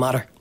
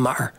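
First: The T is pronounced like a D. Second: The T is replaced by a glottal stop. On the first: "he's turned the T's into a D" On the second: "there's a glottal pop where the T gets removed completely"

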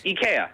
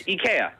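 First: The name is said the Swedish way. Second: The name is said the Swedish way.

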